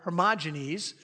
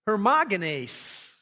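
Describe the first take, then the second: First: The name is pronounced with English sounds. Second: The name is pronounced with Greek sounds. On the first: "That's more of the Englishized version" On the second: "If you look in the Greek, the second name is pronounced"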